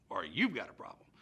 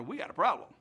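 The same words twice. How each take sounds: First: "you've" punched, the rest dropping low; stress on "you've". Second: "We got a problem" announced loudly; stress on "problem". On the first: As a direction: lean on "you've" to shift the blame. Correction shifts blame onto governor. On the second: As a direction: state "We got a problem" firmly, voice up. Washington confronts governor, then corrects himself. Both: Acted.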